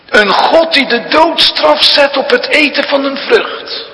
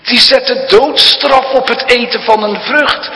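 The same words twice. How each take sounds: First: Higher, louder sneering devil; mock God's harsh sentence as the tempter would; devil's mocking voice. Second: Higher, louder taunting tempter; devil's voice. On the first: Preacher voicing the devil to the congregation, sneering and loud. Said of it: "En dan zegt de duivel". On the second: Retold or imitated. Preacher voicing the devil's taunt, higher and louder. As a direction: sneer at the harsh law. Devil's words, first telling.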